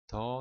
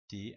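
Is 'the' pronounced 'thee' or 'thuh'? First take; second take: thuh; thee. First: The vowel is a short, weak 'uh' sound. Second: The vowel is a long 'ee' sound.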